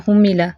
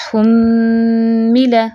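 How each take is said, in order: First: हुम्मिला quick, with a short m; reading without ghunna. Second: हुम्मिला slow, with a long humming m; full ghunna. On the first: Teacher shows how not to read, short meem. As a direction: skip the hum in हुम्मिला. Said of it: "इतने ऐसे नहीं पढ़ना". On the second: Teacher corrects with full ghunna, long nasal hum. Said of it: "भरपूर गुन्ना करना है". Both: Shown as a demonstration.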